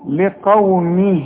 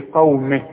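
First: The final vowel is lengthened into the next word. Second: The word ends abruptly with no lengthened vowel. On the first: The word is joined to the following word. "علشان تمدها حركتين عند الوصل" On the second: The reader stops after the word. "اذا وقفت تقول لي لقومه"

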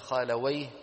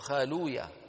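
First: The w has an a-vowel, ending in wayh. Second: The vowel before w is u, ending in ya. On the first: "يفتحون الواو" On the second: "بضم ما قبل الواو"

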